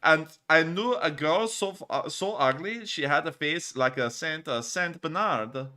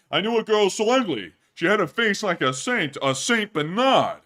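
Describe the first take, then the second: First: Mock German accent. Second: High and loud, punching the one-liner; loud stand-up comic. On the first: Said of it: "time to get into the German accent". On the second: Pretend. Streamer retelling the ugly-girl joke as a loud comic. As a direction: sell the joke like a nightclub comic.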